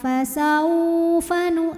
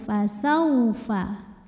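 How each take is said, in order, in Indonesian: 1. Vokal 'saw' dipanjangkan panjang. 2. Vokal 'saw' pendek dan lembut. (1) "tidak perlu dipanjangkan" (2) "cukup lembut"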